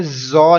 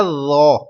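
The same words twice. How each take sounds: First: زو mispronounced with a whistling z; wrong whistled reading. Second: زو with a thick, rounded th as in "this", no whistle; heavy unwhistled first sound in زو; soft emphatic letter. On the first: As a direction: hiss the z at the start of زو, as a mistake. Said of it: "اس کو بھی آپ نے زو نہیں پڑھنا". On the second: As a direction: say زو full-mouthed and soft, without a z hiss. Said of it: "سختی کی آواز نہیں آئے زو پر بھی". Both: Shown as a demonstration.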